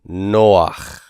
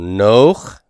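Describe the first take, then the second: First: A short a-glide comes before the final consonant. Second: There is no glide before the final consonant.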